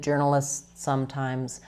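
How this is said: The words run together with one long S. "I'm basically kind of doing one longer S here"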